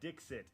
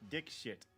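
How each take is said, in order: First: The middle sounds like 'ks', as in 'Dixit'. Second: The middle sounds like 'k-sh', as in 'Dick-shit'. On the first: "is how it's supposed to be pronounced" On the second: "It actually is D I K S H I T"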